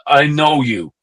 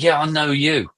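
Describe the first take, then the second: First: Imitating a Dutch rocker's accent. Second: Said in the usual way. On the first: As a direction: lightly put on a Dutch accent. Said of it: "goes to me in a Dutch accent". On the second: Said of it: "And I'm like".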